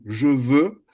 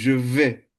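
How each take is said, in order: First: The vowel in veux is rounded. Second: The vowel in veux is unrounded, like e.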